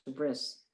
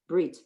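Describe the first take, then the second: First: It ends with an S sound, Ashkenazic style. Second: It ends with a T sound, Sephardic style.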